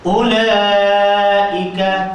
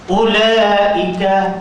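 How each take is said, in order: First: The long vowel is held for three beats. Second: The long vowel is held for two beats.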